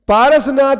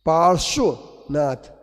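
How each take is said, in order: First: The middle is a plain 'ras' sound. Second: The middle is a 'rshv' cluster sound. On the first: The speaker calls it wrong. "पारसनाथ नहीं है" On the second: The speaker calls it right. "पार्श्वनाथ है"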